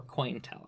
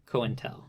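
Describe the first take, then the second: First: "COINTEL" with OI run together, as in coin; coin-tel pronunciation. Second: "COINTEL" with CO as its own syllable, like "coh-IN-tel"; co-intel pronunciation. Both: Shown as a demonstration. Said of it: "how it's supposed to be pronounced".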